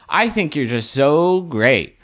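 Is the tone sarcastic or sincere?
sincere. It is said in a sincere, warm tone. The compliment is meant honestly.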